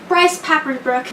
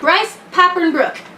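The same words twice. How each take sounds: First: The name is said quickly and run together. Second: The name is said slowly and carefully. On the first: The speaker calls it wrong. "I always say it wrong when I say it too fast" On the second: The speaker calls it right. "I have to slow myself down to say his name right"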